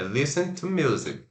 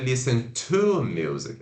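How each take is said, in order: First: The word 'to' is said weak and reduced. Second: The word 'to' is said strong and full. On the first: The speaker calls it right. "é listen to music" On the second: The speaker calls it wrong. "não é forte, não é listen to music"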